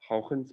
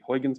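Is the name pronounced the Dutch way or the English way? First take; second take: Dutch; English. First: The name is pronounced with Dutch sounds. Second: The name is pronounced with English sounds. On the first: "if you want to say it in Dutch" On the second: "in the English pronunciation"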